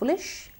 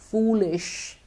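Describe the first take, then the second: First: The vowel is short, not a long oo. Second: The vowel is a long oo sound. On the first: The speaker calls it wrong. "It's not foolish" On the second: The speaker calls it right. "it would be correct"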